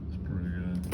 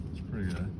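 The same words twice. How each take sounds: The two takes are said the same way.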